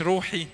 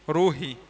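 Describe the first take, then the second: First: روحي said with a hard throaty ḥ sound; روحي with the wrong ح, as the class must not say it; wrong pronunciation. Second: روحي with a light ه sound in the middle; correct pronunciation. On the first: Teacher shows the class the wrong ح in روحي. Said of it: "مش بالحاء". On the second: Teacher shows the class the right ه in روحي. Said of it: "اسمها روحي بالهي". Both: Shown as a demonstration.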